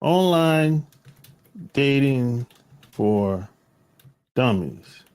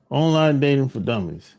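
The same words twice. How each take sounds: First: Each word spaced out, slow, like announcing a title; slow title read-out. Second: Said in the usual way. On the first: Shown as a demonstration. Recalling and spelling out title.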